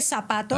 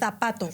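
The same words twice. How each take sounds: First: The z is said like an s. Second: The z is said like a th. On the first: This is how the speaker's own region says it. "So I say zapato" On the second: This is how people from Spain say it. "They say zapato"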